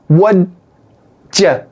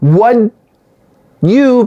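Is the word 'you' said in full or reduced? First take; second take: reduced; full. First: The word 'you' is reduced to 'ya'. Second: The word 'you' is said in full.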